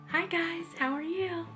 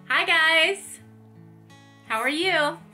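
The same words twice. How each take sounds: First: It is said softly. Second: It is said loudly.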